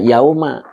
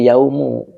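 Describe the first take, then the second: First: The word ends with an 'a' vowel. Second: The word ends with a 'u' vowel. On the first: It works as an adverb of time. The speaker calls it right. "Makanya dibaca yauma" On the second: It works as the subject of the sentence. The speaker calls it wrong. "tidak boleh yaumu"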